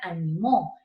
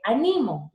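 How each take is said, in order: First: The stress is on the last syllable. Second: The stress is on the middle syllable. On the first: "se volvió una aguda" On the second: "es una grave"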